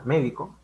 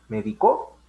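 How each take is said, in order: First: "médico" con la fuerza en MÉ; acento en la primera sílaba. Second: "medicó" con la fuerza en CÓ final; acento en la última sílaba. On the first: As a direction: di "médico" esdrújulo: MÉ-di-co. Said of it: "ya no se pronuncia médico". ("médico" marcando el inicio de la palabra) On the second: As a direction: di "medicó" agudo, me-di-CÓ. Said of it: "en la sílaba co". ("medicó" subiendo en la sílaba CÓ) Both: Shown as a demonstration.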